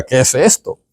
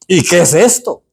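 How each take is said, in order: First: Said in the usual way. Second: "¿Y qué es esto?" with a lightly raised, questioning lift on esto; mildly baffled people seeing manna; puzzled Israelites. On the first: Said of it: "se llama maná, que significa". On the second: Retold or imitated. Teacher voicing the Israelites seeing manna, mildly puzzled. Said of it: "dijeron ellos".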